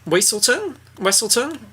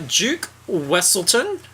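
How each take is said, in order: First: Higher retry of "Wesselton", checking how it's said; testing "Weselton" then "Wesselton" with rising questions; unsure retake of the Duke's name; name pronunciation. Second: "Duke Wesselton" slow, with a questioning rise; trying out "Wesselton" slowly and unsure; sounding out "Wesselton" carefully; name pronunciation. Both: Shown as a demonstration.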